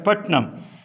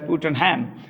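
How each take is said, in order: First: The name is said with two syllables. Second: The name is said with three syllables. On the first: The speaker calls it right. "they pronounce it as Putnam" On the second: The speaker calls it wrong. "they don't pronounce it as Putenham"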